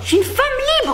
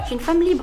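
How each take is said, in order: First: It is said loudly. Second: It is said quietly.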